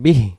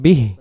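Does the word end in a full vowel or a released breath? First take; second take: vowel; breath. First: The word ends with a full final vowel. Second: The word ends cut short with a released breath. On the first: The speaker calls it wrong. "বিহি পড়ার দরকার নেই" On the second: The speaker calls it right. "উচ্চারণটা দমটা ছেড়ে দেব বিহ"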